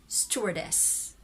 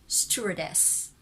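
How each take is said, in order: No difference in how they are said.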